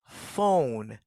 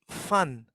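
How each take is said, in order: First: The vowel is a long o sound. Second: The vowel is a short u sound. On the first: The speaker calls it right. "Listen to me. Look at me" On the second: The speaker calls it wrong. "Don't say fun"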